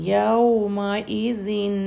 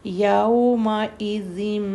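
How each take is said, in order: First: The word ends with a clear n sound. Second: The final n turns into an m sound.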